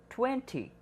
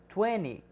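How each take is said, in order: First: The middle T sound is clearly pronounced. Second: The middle T sound is dropped. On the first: The speaker calls it wrong. "e não" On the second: The speaker calls it right. "não falaremos o T"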